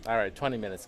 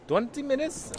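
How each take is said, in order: First: Said in the usual way. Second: Much higher, startled question; surprised. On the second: Real, not acted. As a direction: blurt it out in disbelief. Shocked at the twenty-minute deadline.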